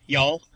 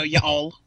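First: Y'all run together in a single syllable; Y'all as one word. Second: Y'all wrongly broken into "ya all"; y'all split in two. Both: Shown as a demonstration. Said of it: "y'all is one word".

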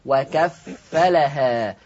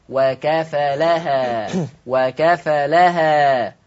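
First: وكفلها with the fa doubled, slow recitation; slow, careful وكفلها with a doubled fa; Hafs doubled fa. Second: وكفلها with a single light fa, slow and drawn; Warsh light fa. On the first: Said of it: "حفص بيقرأ بتشديد الفاء". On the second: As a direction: recite وكفلها slowly without doubling the fa. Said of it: "قرأها بتخفيف الفاء". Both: Shown as a demonstration.

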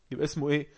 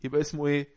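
Both takes have the same delivery.

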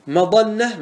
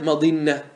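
First: مظنة said "mazanna", with an a, pitched high; fatha form. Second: مظنة said "mazinna", with an i, falling; kasra form. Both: Shown as a demonstration. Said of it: "ما ورد بالوجهين".

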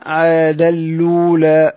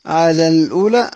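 First: عاد الأولى slowly, keeping the long vowel of الأولى short; short vowel demo. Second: Said in the usual way. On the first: Shown as a demonstration. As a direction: say عاد الأولى slowly without stretching the vowel after the lam. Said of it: "فيها القصر". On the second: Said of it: "أما كلمة عاد الأولى".

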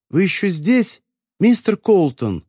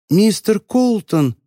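First: Higher, slow muffled call. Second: Muffled, slow call from inside a suitcase; drawn-out call, high and dampened. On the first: Voice in the suitcase asking Frank, muffled. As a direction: call out through the lid. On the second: Voice from the suitcase calling Frank, muffled. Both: A narrator's reading. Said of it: "раздался приглушённый голос".

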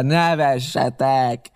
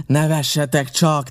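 First: Very slow, louder, stretched nevessetek; pirate jeering back at the laughter; drawn-out taunt. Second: Higher, louder, slow taunt; pirate sneering at the laughing men; scornful shout. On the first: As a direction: drag the word out with scorn. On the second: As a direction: dare them to laugh. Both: A narrator's reading. Pirate mocking the laughing defenders.

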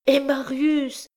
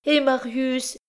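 First: Higher still and slower, desperate; despairing repeated cry; rising anguished cry. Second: High, anguished cry of a mother; high cry for Marius. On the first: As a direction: stretch the name out in despair. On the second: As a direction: cry out her son's name in alarm. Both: A narrator's reading. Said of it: "s'écria la pauvre mère".

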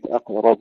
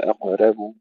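First: أقرب with a thick, dark راء; heavy ra. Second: أقرب with a thin راء, like "reh"; faulty أقرب, thinned راء; wrongly light ra. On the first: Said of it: "وتفخيم الراء جيدا". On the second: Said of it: "ولا نقول". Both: Shown as a demonstration.

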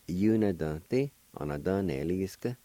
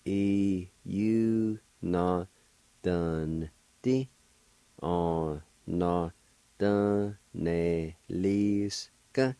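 First: Said in the usual way. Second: Syllables drawn out in one slow sequence; measured, sustained teaching pronunciation; slow syllable demo. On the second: Shown as a demonstration. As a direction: sound it out very slowly, syllable by syllable. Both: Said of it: "And together".

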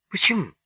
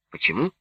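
First: ПОЧЕМУ pitched high, then falling; challenging question. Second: ПОЧЕМУ at normal pitch, rising at the end; asking back. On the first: Nelli demanding an explanation, challenging ПОЧЕМУ high and falling. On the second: Pugachev asking Nelli back, ПОЧЕМУ rising at the end. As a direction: echo ПОЧЕМУ back with a questioning rise. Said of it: "переспросил Пугачёв". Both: A narrator's reading.

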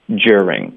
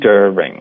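First: "during" as jur-ing, opening on a j sound; British pronunciation. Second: "during" as der-ing, d straight into the er sound; American pronunciation. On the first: Teacher gives the British variant, jur-ing "during". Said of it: "这是一个比较英式的发音方式". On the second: Teacher gives the American variant, reduced der-ing "during". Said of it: "在美式发音中我们就发der". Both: Shown as a demonstration.

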